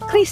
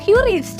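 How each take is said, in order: First: It begins with a plain K sound. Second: It begins with the English letter name Q. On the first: The speaker calls it right. "yang benar dan himbauan dari B I langsung itu adalah Kris" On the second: The speaker calls it wrong. "masih ngomongnya Qris gitu ya"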